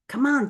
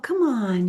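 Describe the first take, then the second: First: It is said in a pushy, impatient voice. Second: It is said in a soft, kind voice. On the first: Hurry up and get moving. The speaker calls it wrong. "all that Aries energy is, hey, let's get going" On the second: A softer, friendlier nudge. The speaker calls it right. "At least say it with a nicer voice"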